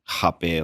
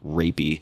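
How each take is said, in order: First: It is pronounced the Brazilian Portuguese way. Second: It is pronounced the English way, like rapey. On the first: The speaker avoids an unpleasant-sounding English word. "like the Brazilian pronunciation" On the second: It sounds like an unpleasant English word. "they don't want it to sound like rapey"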